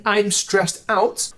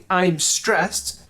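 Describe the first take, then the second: First: "I'm stressed out" said slowly, leaning on "out"; drawn-out "I'm stressed out", weight on the added "out"; emphatic. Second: Said in the usual way. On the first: Shown as a demonstration. Teacher showing learners the emphatic version, slow and stressed. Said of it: "will sound way more emphatic and a bit more natural". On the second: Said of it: "will sound way more emphatic".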